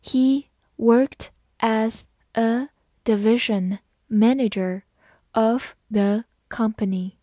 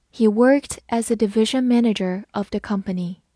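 First: Slow, word by word; careful teacher's model for repeating; slow read-through. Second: Said in the usual way. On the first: Shown as a demonstration. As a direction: read slowly, leaving a gap after every word. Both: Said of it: "好，慢读一遍".

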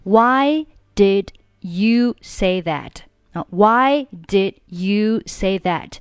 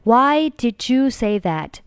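First: "did you" kept apart, final d of "did" held back; unreleased d. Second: "did you" fused into "di-joo"; linked words. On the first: Teacher copying the audio, "did you" unlinked with silent d. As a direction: say "did", stop the d, then a clean "you". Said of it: "把did末尾的不发音". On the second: Teacher showing the other option, "did you" linked as "di-joo". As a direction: join "did you" with a j sound. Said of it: "两个单词连在一起". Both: Shown as a demonstration.

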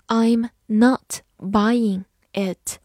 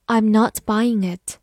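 First: Slow, separated words for learners; very slow teaching model. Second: Said in the usual way. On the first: Shown as a demonstration. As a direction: leave a clear gap after every word. Teacher models sentence word by word.

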